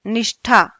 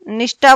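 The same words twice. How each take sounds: First: निष्ठा with aspirated "tha"; correct aspiration. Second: निष्ठा ending in unaspirated "ta"; common mispronunciation. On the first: Teacher models निष्ठा for pupils, aspirated "tha". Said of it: "क्या बोलना है?". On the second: Teacher mimics pupils' निष्ठा, said "nishta". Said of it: "निष्ठा बोल देते हैं हम". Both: Shown as a demonstration.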